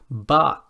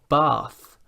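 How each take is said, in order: First: The word ends with a t sound. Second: The word ends with a th sound. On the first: The speaker calls it wrong. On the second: The speaker calls it right.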